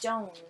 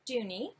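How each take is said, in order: First: The name ends without an 'ee' sound. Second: The name ends with an 'ee' sound. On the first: The speaker calls it wrong. "I think that's how you pronounce it" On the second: The speaker calls it right. "it says Dooney. So"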